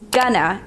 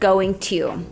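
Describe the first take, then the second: First: It is said as one reduced word. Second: It is said as two full words. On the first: "Gonna instead of going to" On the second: "instead of"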